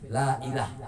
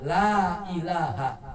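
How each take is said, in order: First: The word ends without its final vowel. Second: The word ends with a full final vowel. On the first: There is no God. The speaker calls it wrong. "Berarti tidak ada Tuhan" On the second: Nothing deserves worship except God. The speaker calls it right. "jangan ditinggal kalimat haknya"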